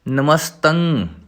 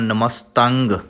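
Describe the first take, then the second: First: The word ends in a nasal with no g. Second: The word ends with an audible hard g sound. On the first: The speaker calls it right. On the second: The speaker calls it wrong. "ਨਮਸਤੰਗ ਇਸ ਤਰ੍ਹਾਂ ਕਹਿ ਜਾਂਦੇ ਨੇ, ਨਮਸਤੰਗ ਨਹੀਂ ਕਹਿਣਾ"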